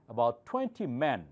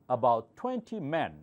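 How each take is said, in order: Both takes have the same delivery.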